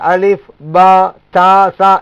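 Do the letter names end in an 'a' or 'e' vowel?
a vowel. The letter names end in an 'a' vowel. This follows how Arabic speakers name the letters. The speaker calls it right. "இதுதான் சரியானதாகும்"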